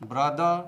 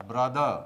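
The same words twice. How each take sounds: The two takes are said the same way.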